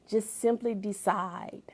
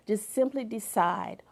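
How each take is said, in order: Both takes have the same delivery.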